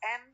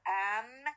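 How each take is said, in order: First: The vowel is reduced to a schwa. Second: The vowel is full and clearly pronounced. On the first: "The weak forms of am is am" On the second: "In final position, no, I have the strong forms"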